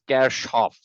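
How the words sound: It is said with a German pronunciation. "The actual German pronunciation for this name is"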